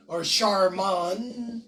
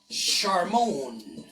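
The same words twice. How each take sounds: First: Charmon as SHAR-mun, plainly, slow; plain American. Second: Charmon as French, ʃar-MOHN, nasal end, lower; French pronunciation. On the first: Shown as a demonstration. Correcting Charmon's name, plain American pronunciation. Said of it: "is supposed to be Charmaine". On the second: Retold or imitated. Charmon insisting his name is French, French pronunciation. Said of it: "Nope, it's French".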